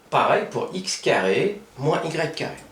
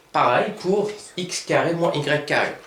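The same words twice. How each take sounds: No difference in how they are said.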